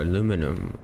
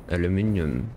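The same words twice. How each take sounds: First: "aluminum" as a-LOO-mi-num, four syllables; American pronunciation. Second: "aluminium" as al-yoo-MIN-ee-um, five syllables; British pronunciation. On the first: Player unsure of the metal's name offers "aluminum", ending -num. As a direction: say "aluminum" without the i before -um. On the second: Player unsure of the metal's name returns to "aluminium", ending -ium. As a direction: say "aluminium" with an i before the final um. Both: Shown as a demonstration. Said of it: "or aluminum or aluminium".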